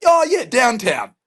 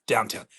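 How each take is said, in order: First: High, loud, drawn-out "Oh, yeah, downtown"; mock-enthusiastic realization, pitched way up; mock recognition. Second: Softer, understated imitation of a vague drunk; lightly voiced unhelpful answer. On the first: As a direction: exaggerate sudden understanding, slowly and high. Mock recognition of the vague answer. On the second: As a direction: say "Downtown" low-key and brief.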